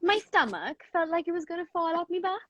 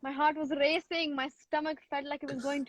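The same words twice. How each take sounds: First: Put-on higher, lilting Welsh accent. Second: Put-on Indian accent. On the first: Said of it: "the last line in Welsh again".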